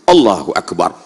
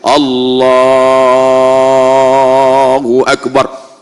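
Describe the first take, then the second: First: The phrase is said short and quick. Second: The phrase is drawn out long.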